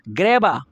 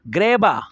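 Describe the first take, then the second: No difference in how they are said.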